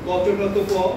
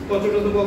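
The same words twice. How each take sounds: First: The syllables are said at a slow pace. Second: The syllables are said at a fast pace.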